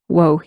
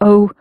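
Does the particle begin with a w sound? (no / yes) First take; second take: yes; no. First: It begins with a w sound before the vowel. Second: It is a plain vowel with no w. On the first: "the O sound sounded slightly more like a wo sound" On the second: "So O or wo"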